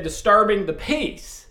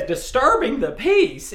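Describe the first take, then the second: First: Said in the usual way. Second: Disturbing the peace, raised high in disbelief; incredulous question. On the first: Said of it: "Barney said". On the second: Retold or imitated. Andy echoing Barney's charge in disbelief, higher. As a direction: echo it back in disbelief. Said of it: "And Andy says".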